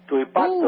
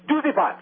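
First: It is said in full standard Italian form. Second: It is said in a clipped Italian-American dialect form. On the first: "it has evolved from the Italian" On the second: "If you're from Jersey, if you're from the Northeast, where there's a large Italian concentration, you'll hear the expression"

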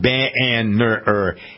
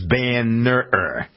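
First: The stress is on the first syllable. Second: The stress is on the second syllable. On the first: The speaker calls it wrong. "It's not Banner" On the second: The speaker calls it right. "The emphasis on the right side"

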